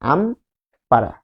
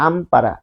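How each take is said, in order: First: "Ampara" very slow, with a long pause after আম; split into syllables. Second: Said in the usual way. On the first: Shown as a demonstration. Teacher showing two syllables, "Ampara" drawn out and split by a pause. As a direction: break "Ampara" in two, আম and পাড়া. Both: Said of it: "তাহলে দুইটা syllable".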